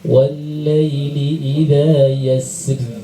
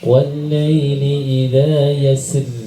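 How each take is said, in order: Both takes have the same delivery.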